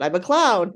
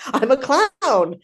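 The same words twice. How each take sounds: First: Said in the usual way. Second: "I'm a clown" slow and higher, "clown" landed loud and falling; proud declaration. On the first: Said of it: "there, there, I said it". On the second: Retold or imitated. Turning down coaching requests, proudly slowing on "clown". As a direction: announce "I'm a clown" proudly, slowly, leaning hard into "clown". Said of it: "And I'm like".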